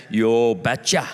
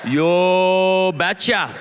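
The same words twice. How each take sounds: First: Low, slow Norwegian father; thick Norwegian accent. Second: Hugely drawn-out Norwegian reply; thick Norwegian accent. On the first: Norwegian father answering a suitor, thick Norwegian accent. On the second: Norwegian father agreeing after a long pause, exaggerated Norwegian accent. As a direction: stretch every word in a thick Norwegian accent. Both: Acted. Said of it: "in his thick Norwegian accent".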